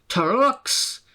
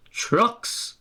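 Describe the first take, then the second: First: High, outraged rising Trucks; indignant engine. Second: High, firm teasing trucks; driver's firm retort. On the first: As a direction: Sir Handel can't believe it. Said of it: "snorted Sir Handel". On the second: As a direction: driver echoes him firmly. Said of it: "his driver repeated". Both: A narrator's reading.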